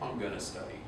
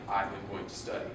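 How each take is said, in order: First: The words are contracted and reduced to gonna. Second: Each word is said fully, without contraction. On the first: This is how it is said in speech. "when you're saying" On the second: This is the form used in writing. "you would write it down like"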